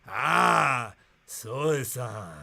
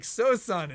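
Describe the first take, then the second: First: "Sosan" said lower and drawn out, soh-sah with a clipped end, after a knowing "Ah"; imitating his pronunciation. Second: "Sosan" said the American way, soh-SAN with a flat a and a firm falling close; the first, not-quite-right "Sosan", said plainly like an English word; her mispronunciation. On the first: Retelling how the local man finally said "Sosan", lightly imitated. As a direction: mimic the local's own way of saying "Sosan", dropping into a lower voice. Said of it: "That's how he said it".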